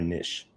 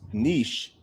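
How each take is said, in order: First: The word has a Southern regional pronunciation. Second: The word has its standard pronunciation. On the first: "It's what I've heard here in the South a lot" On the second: "I think, is the correct way to say it"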